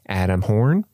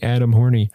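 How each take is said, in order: First: The surname ends on the n sound. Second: The surname ends with an added ee sound. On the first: The speaker calls it right. "the E at the end is not pronounced" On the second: The speaker calls it wrong. "It's not Adam Horny, which sounds kind of funny"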